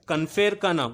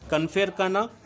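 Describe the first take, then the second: No difference in how they are said.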